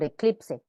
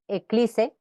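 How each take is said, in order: First: The p sound is pronounced. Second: The p sound is left out. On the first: The speaker calls it right. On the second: The speaker calls it wrong.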